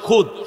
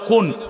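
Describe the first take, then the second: First: The word ends with a d sound. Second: The word ends with an n sound. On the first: This is the standard form of the word. "এটা শুদ্ধ শব্দ হলো খুদ" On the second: This is the regional dialect form of the word. "আমগো মমি সিংহে বাসে কয় খুন"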